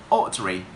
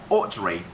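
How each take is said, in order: No difference in how they are said.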